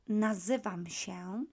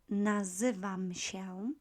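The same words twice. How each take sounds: No difference in how they are said.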